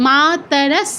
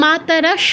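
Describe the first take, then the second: First: মাতরস slowly with a clear final s, not sh; dental s demo. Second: মাতরস said quicker, ending in sh; wrong sh ending. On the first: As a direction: end মাতরস on a crisp dental s. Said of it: "দন্ত স আছে". (মাতরস, শেষে দন্ত্য স স্পষ্ট) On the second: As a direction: swap the final s of মাতরস for sh. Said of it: "আর মাতরস হবে না". (মাতরস, শেষে শ দিয়ে ভুল উচ্চারণ) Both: Shown as a demonstration.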